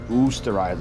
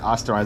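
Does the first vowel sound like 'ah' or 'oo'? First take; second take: oo; ah. First: The first vowel is a long 'oo'. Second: The first vowel is a short open 'ah'. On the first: The speaker calls it right. "Apparently it's Oosterizer" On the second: The speaker calls it wrong. "I kept saying Osterizer"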